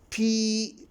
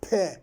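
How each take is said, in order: First: It is the full spoken name of the letter. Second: It is a short bare consonant sound. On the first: "when I spell it, I say P" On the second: "P as a sound"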